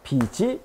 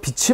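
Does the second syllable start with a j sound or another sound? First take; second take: j sound; another sound. First: The final consonant carries over as a j sound. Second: The final consonant does not carry over as j. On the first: The speaker calls it right. "비지라고 해줘야 되는 거죠" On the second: The speaker calls it wrong. "국적 없는 발음"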